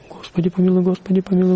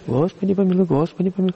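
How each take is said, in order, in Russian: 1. Высота остаётся ровной на всём протяжении. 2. Высота прыгает вверх и вниз между нотами. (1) "Ровный монашеский, монастырский читок" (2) "Вот так читают на приходах"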